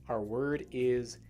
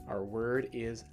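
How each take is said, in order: No difference in how they are said.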